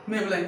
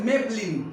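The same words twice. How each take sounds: First: Maybelline ending in "-line", "may-be-LAIN"; wrong pronunciation. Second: Maybelline ending in "-leen", "MAYB-leen"; correct pronunciation. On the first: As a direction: say Maybelline with an "eye" vowel at the end. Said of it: "It's not a Maybelline". (Maybelline का गलत उच्चारण "मेबलाइन") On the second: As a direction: say Maybelline with an "ee" at the end. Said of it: "it's a Maybelline". (Maybelline का सही उच्चारण "मेब्लीन") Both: Shown as a demonstration.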